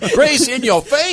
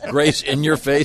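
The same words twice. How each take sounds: First: The phrase is screamed loudly. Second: The phrase is said at a normal volume.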